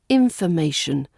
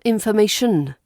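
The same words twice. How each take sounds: First: The ending of the word sounds weak. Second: The ending of the word sounds strong. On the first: The speaker calls it right. "The ending is weak and a bit boring, as it should be" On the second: The speaker calls it wrong. "not information"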